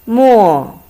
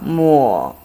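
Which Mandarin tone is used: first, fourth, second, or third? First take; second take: fourth; third. First: It is said with the fourth tone. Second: It is said with the third tone. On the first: It means ink. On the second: It means wipe.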